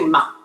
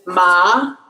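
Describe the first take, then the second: First: The pitch stays low without rising. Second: The pitch rises from middle to high. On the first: "when you're speaking, you just say ma" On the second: "three, five is ma"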